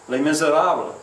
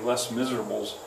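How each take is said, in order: First: The title is pronounced the French way. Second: The title is pronounced in an anglicized way. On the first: The speaker calls it right. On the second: The speaker calls it wrong.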